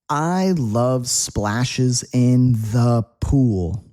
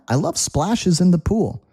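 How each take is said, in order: First: The sentence is spoken at a slower pace. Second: The sentence is spoken at a faster pace.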